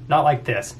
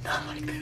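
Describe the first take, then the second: First: Said in the usual way. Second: Hushed, voiceless whispered echo. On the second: Real, not acted. Answering about YouTube popularity, whispered repeat. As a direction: whisper it under a laugh-tinged breath.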